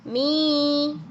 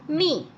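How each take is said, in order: First: The vowel is long. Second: The vowel is short. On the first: "jadi panjang" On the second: "dibaca pendek"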